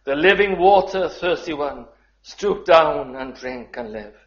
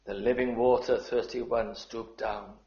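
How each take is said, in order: First: Loud, high proclamation of the hymn line; ringing proclamation. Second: Tender reread. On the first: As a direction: call it out to the hall. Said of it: "But the second verse". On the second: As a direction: savour the words gently, dropping away. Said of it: "I just love those words". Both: Shown as a demonstration.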